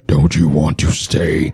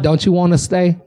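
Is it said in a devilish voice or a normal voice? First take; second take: devilish; normal. First: It is said in a menacing devil voice. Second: It is said in a normal, inviting voice.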